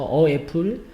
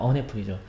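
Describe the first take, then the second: First: The article has no n before apple. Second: An n sound links the article to apple. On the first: The speaker calls it wrong. "굳이 우기는 친구가 있어. 어 애플? 아닙니다" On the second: The speaker calls it right. "on 애플이 편합니까? on 애플입니다"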